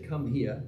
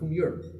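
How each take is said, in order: First: 'Here' has a plain standard pronunciation. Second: 'Here' sounds like 'Europe' in a local accent. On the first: "They don't say come here" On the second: "they say come Europe"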